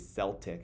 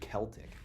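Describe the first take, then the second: First: The word begins with a soft S sound. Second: The word begins with a hard K sound. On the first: The speaker calls it wrong. "some people say Celtic because it starts with a C" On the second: The speaker calls it right. "the actual pronunciation is Celtic with a K"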